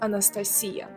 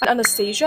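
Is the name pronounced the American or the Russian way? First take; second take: Russian; American. First: The name is pronounced the Russian way. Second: The name is pronounced the common English way. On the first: "in Russia we pronounce it as Anastasia" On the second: "I believe this name is pretty common worldwide"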